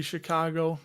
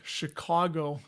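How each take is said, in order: First: "Chicago" said the speaker's own local way; local Chicago pronunciation. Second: "Chicago" with a caw vowel in the middle. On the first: Owning up to a local habit, Chicago pronunciation. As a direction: say "Chicago" as a local does, without "caw". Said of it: "I do realize that I say Chicago". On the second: Showing how others say it, "Chicago" with caw. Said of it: "like caw". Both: Shown as a demonstration.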